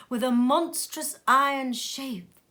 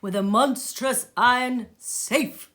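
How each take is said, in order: First: "shape" read with sh instead of s; slip: says "shape" where the text has "safe"; misread word. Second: "safe" said clearly with an s sound; careful reread of "safe", s crisp; corrected reading. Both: Real, not acted. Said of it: "I say that again".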